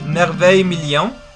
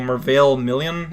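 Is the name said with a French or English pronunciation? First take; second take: French; English. First: The name is pronounced the French way. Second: The name is pronounced the English way. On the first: "assuming it's French" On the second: "Unless you want me to pronounce them in English"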